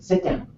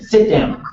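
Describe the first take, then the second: First: It is said at normal volume. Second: It is yelled loudly. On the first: "I can just say" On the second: "I don't always have to yell it like that"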